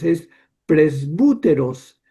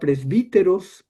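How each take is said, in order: First: The second vowel sounds like 'oo'. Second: The second vowel sounds like 'ee'.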